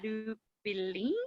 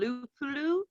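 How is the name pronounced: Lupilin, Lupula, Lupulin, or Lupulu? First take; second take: Lupilin; Lupulu. First: The name is said as Lupilin, with -pi- inside. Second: The name is said as Lupulu, ending in -lu.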